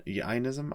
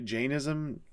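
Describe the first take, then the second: First: "Jainism" with a Y sound, like EYE-nism; questioning "Jainism" as YAI-nism; alternative pronunciation. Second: "Jainism" with a hard J, like jay; tentative "Jainism" as JAY-nism; unsure pronunciation. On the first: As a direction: say "Jainism" without the hard J, rising as a question. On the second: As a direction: say "Jainism" starting with a J sound, ending down. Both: Real, not acted. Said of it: "I don't know how to pronounce that".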